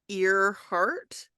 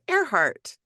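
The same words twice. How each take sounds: First: The first part sounds like 'ear'. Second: The first part sounds like 'air'. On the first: The speaker calls it wrong. "it's spelled like Earhart" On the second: The speaker calls it right. "but you pronounce it Earhart"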